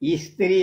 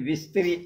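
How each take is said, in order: First: The word begins with a plain vowel. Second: The word begins with a v sound. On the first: The speaker calls it right. "ఇస్త్రీ అన్నది" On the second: The speaker calls it wrong. "విస్త్రీ అనటం"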